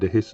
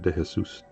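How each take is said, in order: First: The surname is said with an English pronunciation. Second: The surname is said with a Spanish pronunciation. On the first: "how do I say my surname?" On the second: "in Spanish it would be pronounced"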